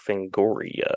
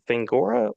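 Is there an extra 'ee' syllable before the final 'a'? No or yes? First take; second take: Yes; No. First: It ends '-goria' with an 'ee' syllable. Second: It ends '-gora' with no 'ee' syllable. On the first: The speaker calls it right. "one does want to pronounce the I" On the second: The speaker calls it wrong. "I was wrong as a kid"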